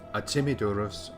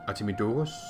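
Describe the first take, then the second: First: The second syllable is stressed. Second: The second syllable is not stressed. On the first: The speaker calls it right. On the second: The speaker calls it wrong.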